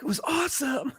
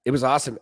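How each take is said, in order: First: Much higher, softer mimicking voice; mock their answer in a high voice; high mock bandmate voice. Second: Said in the usual way. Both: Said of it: "And you guys were like".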